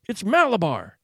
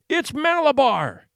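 First: A touch higher, milder repeat of the scream; strange scream. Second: Powerful strange scream. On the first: Boy on the rocking horse repeating the name, milder strange scream. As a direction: hold on to the name as the cry fades. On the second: Boy on the rocking horse screaming at his mother, strange and powerful. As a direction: scream it like something possessed. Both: Acted. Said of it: "he screamed in a powerful, strange voice".

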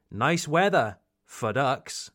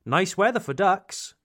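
First: A pause after "Nice weather" before "for ducks"; pause in the middle. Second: "Nice weather for ducks" said in one quick run, no break; no pause. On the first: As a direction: hold a beat after "weather" for irony. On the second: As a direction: run it straight through without stopping. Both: Shown as a demonstration. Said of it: "The pause in the middle ... is optional".

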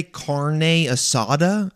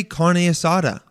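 First: "carne asada" drawn out with Spanish vowels; slow, overly authentic "carne asada"; over-correct Spanish pronunciation. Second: Said in the usual way. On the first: Acted. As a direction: say "carne asada" like a show-off native speaker. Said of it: "you don't have to say". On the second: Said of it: "Just say carne asada in English".

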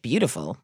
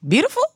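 First: Low, muted disbelief; doubtful mother. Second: High, sharply rising question; incredulous mother. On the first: Mother answering scammers who praised her daughter, low and doubtful. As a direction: imitate a mother quietly unconvinced. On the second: Mother questioning scammers' praise of her daughter, high-pitched incredulous echo. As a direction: imitate a mother who cannot believe it. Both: Retold or imitated. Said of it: "And my mother was like".

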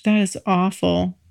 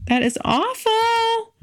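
First: Said in the usual way. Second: Slow, much higher That is awful, awful drawn out; high mock horror. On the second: Real, not acted. To listeners, embarrassed at forgetting a date, high and slow. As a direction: squeal it in playful dismay.

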